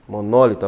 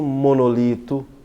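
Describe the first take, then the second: First: The stress is on the second syllable. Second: The stress is on the third syllable. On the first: The speaker calls it right. "a palavra é proparoxítono" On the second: The speaker calls it wrong. "não vai encontrar"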